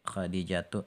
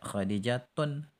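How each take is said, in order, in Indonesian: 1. Kata itu diakhiri dengan vokal tanpa n. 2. Kata itu diakhiri dengan bunyi n tambahan. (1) "nama wanita itu secara umum tidak menerima tanwin seperti Khadijatu" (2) "Jangan kita baca Khadijatun. Salah"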